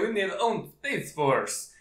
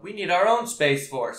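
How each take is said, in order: First: It is said in a put-on Russian accent. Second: It is said in the speaker's ordinary accent. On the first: "I know that was a crappy Russian accent" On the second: "I wasn't even trying to do a China"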